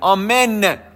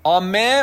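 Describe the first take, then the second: First: The word ends with a clear final n sound. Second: The word ends without the final n sound. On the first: The speaker calls it right. "آمن یه نه آخرش داره" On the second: The speaker calls it wrong. "آمنی که نونش قرائت نشه"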